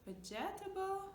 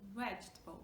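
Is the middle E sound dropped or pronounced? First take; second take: pronounced; dropped. First: The middle E sound is pronounced. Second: The middle E sound is dropped. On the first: The speaker calls it wrong. "We don't say" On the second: The speaker calls it right. "We're just like dropping this connecting E"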